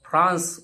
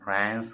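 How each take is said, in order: First: It is said with a British accent. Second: It is said with an American accent. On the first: "जसं आपण फ्रान्स ब्रिटिशमध्ये म्हणतो" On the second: "American फ्रान्स असं म्हणतात"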